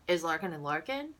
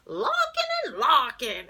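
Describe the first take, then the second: First: Said in the usual way. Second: Loud, high, slow cartoon holler; big drawn-out shouted phone greeting; the Wolf. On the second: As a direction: answer the phone like a clown. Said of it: "he'd answer the phone".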